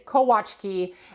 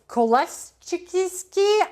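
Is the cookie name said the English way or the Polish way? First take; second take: Polish; English. First: It is said with a w sound, Polish style. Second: It is said as spelled, with an l sound. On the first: "the Polish pronunciation of this is indeed" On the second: "You have probably pronounced it differently, right? Like col, like look at the spelling"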